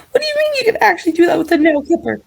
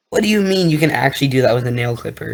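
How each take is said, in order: First: Fast, very high squeaky voice; chipmunk voice. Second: Said in the usual way. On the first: Acted. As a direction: rattle it off like a chipmunk. Sped-up high repeat.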